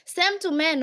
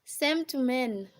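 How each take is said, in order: First: Called out loud and high, punching Same; a sudden loud aside; loud emphatic. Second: Slower, steadier, leaning on Same; calm slow restatement; slow repeat. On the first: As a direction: throw Same to men out to the room. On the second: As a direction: repeat it slowly so it sinks in. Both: Real, not acted.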